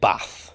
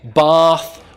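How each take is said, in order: First: It has the short northern 'a' vowel. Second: It has the long southern 'ah' vowel.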